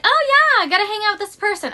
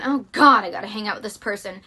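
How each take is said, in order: First: Bright, high put-on cheer; fake enthusiasm. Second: Dreading groan. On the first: Faking joy about meeting a draining friend. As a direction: pretend you can't wait to see them. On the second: Retold or imitated. Admitting dread about seeing a draining friend. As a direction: let the dread drag it down.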